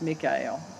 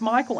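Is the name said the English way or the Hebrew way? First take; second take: Hebrew; English. First: The name is said the Hebrew way. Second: The name is said the usual English way.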